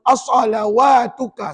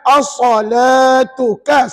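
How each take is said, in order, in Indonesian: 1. Bunyi 'w' terdengar setelah 'l'. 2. Tidak ada bunyi 'w' yang terdengar setelah 'l'. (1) "Pernah saya dengar ada yang baca as-salawatuka. Salah" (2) "ni perkataan as-salatuka sebut"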